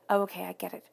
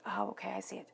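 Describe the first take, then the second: First: Said in the usual way. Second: Hushed "Oh, okay, I see it"; soft whispered dawning; whispered realization. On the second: Retold or imitated. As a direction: whisper it as the penny drops. Voicing the listener's realization.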